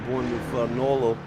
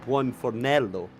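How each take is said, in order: First: The place name comes out garbled. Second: The place name comes out cleanly. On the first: The speaker calls it wrong. "Absolutely butchered that" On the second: The speaker calls it right. "the proper way of saying it"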